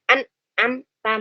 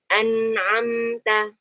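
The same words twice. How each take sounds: First: The m sound is held tight and stopped abruptly. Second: The m sound keeps flowing into the next sound. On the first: The speaker calls it wrong. "bukan an'amta, bukan gitu ya" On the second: The speaker calls it right. "alirkan aja"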